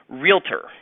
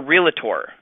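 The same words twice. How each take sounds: First: The word is said with two syllables. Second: The word is said with three syllables. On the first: The speaker calls it right. "Realtor is two syllables" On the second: The speaker calls it wrong. "It's not three syllables. It is not a realtor"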